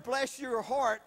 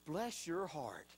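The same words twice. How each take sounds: First: Said in the usual way. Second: Soft, slow, lower and sweetly pitying; sugary put-down. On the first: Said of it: "I heard". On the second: Retold or imitated. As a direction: coo it like a kind insult. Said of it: "really she was saying".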